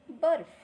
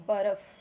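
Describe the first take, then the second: First: बर्फ़ with a clear f, loud and high; f in barf. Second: बर्फ़ with an aspirated ph; plain ph in barph. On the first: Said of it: "तो हम पढ़ेंगे". (नुक्ते वाला बर्फ़, फ़ की ध्वनि) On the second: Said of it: "और जब नुक्ता लग जाता है". (बिना नुक्ते के बर्फ) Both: Shown as a demonstration.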